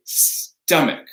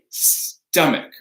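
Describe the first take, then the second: First: The middle consonant is a hard K. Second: The same.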